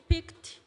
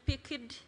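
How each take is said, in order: First: The word ends with a clear t sound. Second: The word ends without the t sound. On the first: The action is in the past. The speaker calls it right. "instead of saying picked" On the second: The action sounds like the present. The speaker calls it wrong. "you're saying picked"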